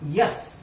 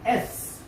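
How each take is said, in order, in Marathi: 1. ते 'य' ध्वनीने सुरू होते. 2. ते थेट स्वर ध्वनीने सुरू होते. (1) "not yes, wrong" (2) "एस not yes"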